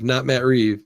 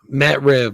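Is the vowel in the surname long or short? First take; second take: long; short. First: The surname has a long vowel. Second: The surname has a short vowel. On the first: The speaker calls it wrong. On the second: The speaker calls it right.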